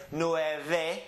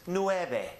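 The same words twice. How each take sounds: First: "nueve" with a true v instead of b; V sound. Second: "nueve" with the v said as a soft b; soft B sound. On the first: Teacher allowing the other way, "nueve" with a clear v. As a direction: say "nueve" as nue-veh, rising at the end. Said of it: "if you decide to say". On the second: Teacher showing the Mexican pronunciation, "nueve" with a soft b. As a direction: say "nueve" like nue-be, falling at the end. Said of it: "pronounced as a soft B sound". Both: Shown as a demonstration.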